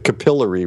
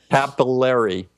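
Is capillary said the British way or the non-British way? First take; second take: British; non-British. First: The word is said in a British way. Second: The word is said in a non-British way. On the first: "Or as you probably say, you were raised through an English system of teaching" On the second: "and we pronounce it capillary"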